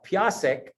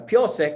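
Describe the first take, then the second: First: The first vowel sounds like 'a'. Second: The first vowel sounds like 'o'. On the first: This is the speaker's own dialect. "We say" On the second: This is another group's dialect. "they uh, piosek"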